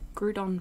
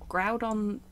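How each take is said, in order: First: The first syllable sounds like 'crew'. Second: The first syllable sounds like 'ground'. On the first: The speaker calls it right. "feels better, but maybe that's because it sounds a bit like crouton" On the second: The speaker calls it wrong. "just feels weird in my mouth"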